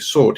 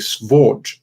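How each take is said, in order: First: It is said with no v sound after the s. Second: It is said with a v sound after the s. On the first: The usual modern form of the word. "he wouldn't say sword" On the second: The older, more ancient form of the word. "He would pronounce the V in it"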